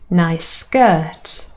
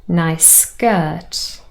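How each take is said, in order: No difference in how they are said.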